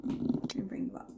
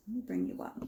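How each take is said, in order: First: Soft breathy whisper. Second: Said in the usual way. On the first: Shown as a demonstration. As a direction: drop to a whisper. Says it twice, second whispered.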